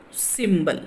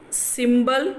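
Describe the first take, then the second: First: "symbol" as SYM-bol, falling away; "symbol" said as SYM-bol with falling tune; stress on first syllable. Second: "symbol" with the pitch rising to its end; "symbol" held high, ending on a rise; first option of stress. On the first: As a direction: hit SYM and drop on the end of "symbol". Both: Shown as a demonstration. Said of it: "so then the stress is in the first syllable".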